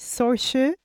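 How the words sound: The name is pronounced with Irish sounds. "je crois que ça se dit Saoirse"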